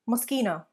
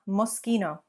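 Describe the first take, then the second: First: The middle consonant is said as sk. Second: The middle consonant is said as sk.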